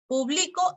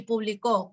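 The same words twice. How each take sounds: First: "publico" hit on the middle syllable; stress on BLI of publico. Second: "publicó" hit on the last syllable; stress on CÓ of publicó. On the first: (acento en BLI de «publico») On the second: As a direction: lean on CÓ in "publicó". (acento final en CÓ de «publicó») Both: Shown as a demonstration. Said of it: "el acento cumple función distintiva".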